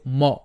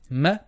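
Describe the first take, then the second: First: The m syllable sounds heavy and full-mouthed. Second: The m syllable sounds light and flat. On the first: The speaker calls it wrong. "don't make the mim heavy. Don't say ma" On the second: The speaker calls it right. "Mim is going to be flat"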